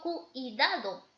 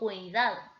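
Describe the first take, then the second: First: The u and i fall in separate syllables. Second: The u and i glide within one syllable. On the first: The speaker calls it wrong. "yo no digo cuidado" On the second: The speaker calls it right. "yo digo cuidado"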